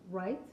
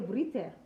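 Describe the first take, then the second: First: The word starts with a plain R sound. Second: The word starts with a V-like sound before R. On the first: The speaker calls it right. "give you example like word right" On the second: The speaker calls it wrong. "so we would say vrite"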